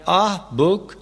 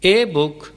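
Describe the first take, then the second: First: The article is said as a long 'ah'. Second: The article is said as a full 'ay'. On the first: "कहना दुरुस्त नहीं" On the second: "कहना दुरुस्त नहीं"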